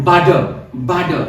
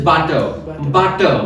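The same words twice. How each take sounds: First: Butter said as "budder"; American D for T. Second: Butter with a clear hard T; British-Indian T. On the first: Teacher showing American English, D-sound butter. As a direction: soften the T in butter to a D. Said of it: "ट sound को ड में change". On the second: Teacher showing British and Indian English, hard-T butter. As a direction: keep the T in butter crisp, as T. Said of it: "Indian English we use to say". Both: Shown as a demonstration.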